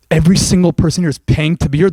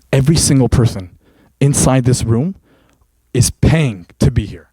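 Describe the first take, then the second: First: Disbelieving repeat with a long rising end; can't believe what they just heard; incredulous question. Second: Trainer's solemn low reveal. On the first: Acted. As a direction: aliens stunned and asking back. Aliens repeat trainer's words in disbelief. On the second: Shown as a demonstration. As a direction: drop the voice and land each word. Trainer reveals gym truth, aliens repeat.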